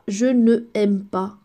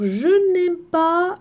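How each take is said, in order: First: The word ne is said as a full syllable. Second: The word ne is shortened to n before aime. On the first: The speaker calls it wrong. "on ne dit pas je ne aime pas. Non, c'est lourd" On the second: The speaker calls it right. "on enlève le e, on fait l'apostrophe"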